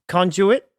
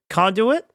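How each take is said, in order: First: The word is said with a British pronunciation. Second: The word is said with an American pronunciation. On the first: "British pronunciation" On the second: "Conduit is American"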